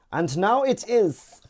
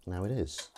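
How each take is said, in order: First: Put-on loud, high, slow German accent; hammed-up German accent, drawn out and high. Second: Said in the usual way. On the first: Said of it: "do a German accent like that". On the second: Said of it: "Is it all right to do a German accent".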